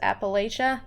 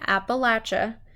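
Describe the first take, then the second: First: It is pronounced the way outsiders say it. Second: It is pronounced the way locals say it. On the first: The speaker is an outsider who cannot be trusted. The speaker calls it wrong. "they know you're an outsider and they can't trust you" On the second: The speaker may be someone the community can trust. The speaker calls it right. "maybe we can trust them in those communities"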